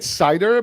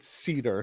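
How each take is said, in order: First: The first vowel sounds like 'eye'. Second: The first vowel sounds like 'ee'. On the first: "I'm pronouncing it cider" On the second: "people pronounce it cedar"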